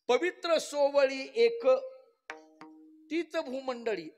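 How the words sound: The pause comes after 'ek', joining it to before.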